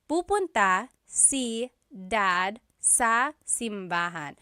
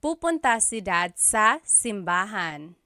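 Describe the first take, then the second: First: Slowed right down, each word spelled out for learners; slow and clear. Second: Said in the usual way. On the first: Shown as a demonstration. Teacher repeats the Tagalog answer for students, slow and clear. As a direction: give the learner every syllable of Pupunta si dad sa simbahan slowly. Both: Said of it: "And then the response".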